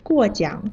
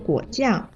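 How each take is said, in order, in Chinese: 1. 第一个音节下降，第二个音节降升。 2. 第一个音节降升，第二个音节下降。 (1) "过是4 声，奖是3 声。" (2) "果是3 声，酱是4 声，声调反了。"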